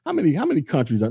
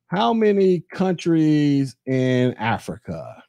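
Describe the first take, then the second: First: Said in the usual way. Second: Drawn-out, careful recount; slow right down to get the number right; slow deliberate question. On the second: Real, not acted. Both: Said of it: "let me get my numbers right".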